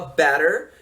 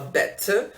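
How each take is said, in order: First: It is said in an American accent. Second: It is said in a posh British accent. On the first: "o americano fala better" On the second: "o britânico, o posh, que é o da família real, fala better"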